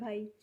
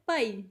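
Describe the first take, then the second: First: The word is said softly and politely. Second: The word is said with more force. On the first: This is the Hindi form of the word. "Hindi में बोलते हैं भाई तो बिल्कुल polite way में बोला जा रहा है" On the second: This is the Punjabi form of the word. "Punjabi में इसको बोलते हैं तब बोलते हैं पाई, मीन्स थोड़ा ज़ोर से"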